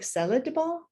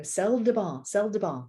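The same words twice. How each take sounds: First: "Sel de bain" with a high lift, stressing "bain"; native French inflection. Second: "Sel de bain" said evenly with level pitch, each word flat; flat tourist French. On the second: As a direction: repeat "sel de bain" flatly like a tourist missing the tune. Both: Retold or imitated. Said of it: "I'm sure I'm not getting the inflection right".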